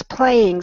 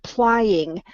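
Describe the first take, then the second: First: Said in the usual way. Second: "plying" with an eye vowel in place of ay; mispronounced playing. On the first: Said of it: "it came through much better". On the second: Shown as a demonstration. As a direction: say "plying", rhyming with trying. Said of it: "came through as the word plying".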